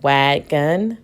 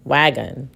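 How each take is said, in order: First: "wagon" split as "wag... gun"; two separate syllables in "wagon", second with "uh"; sounding out with schwa. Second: "wagon" as one joined word, lower at the end; "wagon" said whole after sounding out; blended schwa. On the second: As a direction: blend "wagon" with a reduced "uh" in the second syllable. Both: Shown as a demonstration. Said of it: "I can use the schwa sound".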